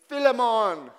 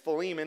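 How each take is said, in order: First: The name is said in a Jamaican accent. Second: The name is said in a standard accent. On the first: The speaker calls it wrong. "in a Jamaican accent saying" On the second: The speaker calls it right. "The majority concludes it's Philemon"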